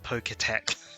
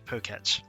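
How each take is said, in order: First: An extra vowel follows the T sound. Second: There is no vowel after the T sound. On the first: The speaker calls it wrong. "It's not Poketech" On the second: The speaker calls it right. "there's no E after the T"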